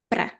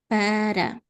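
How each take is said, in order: First: The first vowel is dropped, one syllable. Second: The word is said with two full syllables. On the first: This is how people speak in the real world. "we cut the first A and it's just pra" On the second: This is the classroom form. "not even para"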